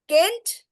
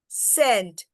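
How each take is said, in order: First: The word begins with a hard K sound. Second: The word begins with a soft S sound. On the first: The speaker calls it wrong. "how this is pronounced? Kent? Do we write it Kent?" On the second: The speaker calls it right. "you can only hear the s, its name, C"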